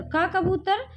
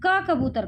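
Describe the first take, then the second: First: का कबूतर said with a rise on कबूतर; rising check. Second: का कबूतर said as a statement, falling at the end. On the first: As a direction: lift कबूतर up like a question to the class. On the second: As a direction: present का कबूतर flatly and falling. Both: Shown as a demonstration. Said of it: "तो यहाँ देखिए".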